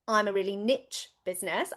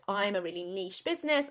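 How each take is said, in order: First: It is said with American pronunciation. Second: It is said with British pronunciation.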